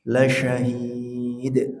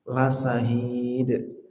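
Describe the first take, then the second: First: The consonant is a broad sh hiss. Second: The consonant is a thin s hiss. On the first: The speaker calls it right. "Syanya, desisnya dibesarkan" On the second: The speaker calls it wrong. "itu contoh yang salah ya"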